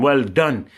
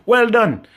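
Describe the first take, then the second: First: Said in the usual way. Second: Higher, louder mocking well done; sarcastic praise. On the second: Real, not acted. Ranting at politicians, sneering sarcastic well done. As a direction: throw the praise back scornfully. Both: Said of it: "you know say sarcasm".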